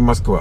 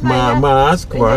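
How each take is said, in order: First: The vowels are pronounced in an ordinary way. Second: The 'a' sounds are exaggerated and drawn out. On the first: This is how the speakers themselves say it. "это мы с вами говорим Москва" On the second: This is how others mock the speakers' accent. "а нас дразнят. Нам говорят Москва"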